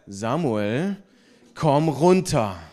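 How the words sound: It is said in a stern, warning tone.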